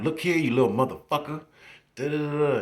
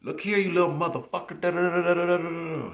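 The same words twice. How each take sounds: First: High, louder mock cussing out. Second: Much higher, louder mock cussing out; mock furious teacher. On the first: Teacher cussing out a misbehaving student, high mock scold. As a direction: scold like a fiery little lady. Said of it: "Then she'll cuss you out". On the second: Teacher cussing out a student who pissed her off, high furious mock. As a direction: explode like a tiny furious lady. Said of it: "you piss her off".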